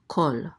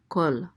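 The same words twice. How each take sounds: First: The vowel is a rounded 'aw' sound. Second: The same.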